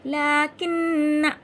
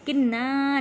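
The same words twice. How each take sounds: First: "लाकिन्ना" chanted loud and slow, long nn, short na; short final alif. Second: "किन्ना" with a long final naa; wrongly stretched ending. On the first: Teacher answering how to read, "लाकिन्ना" with short final na. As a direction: hold "लाकिन्ना" on the nn, not the ending. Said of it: "क्या पढ़ेंगे?". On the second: Teacher showing the wrong reading, "किन्ना" with stretched ending. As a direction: drag out the last vowel of "किन्ना". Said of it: "किन्ना नहीं पढ़ेंगे". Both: Shown as a demonstration.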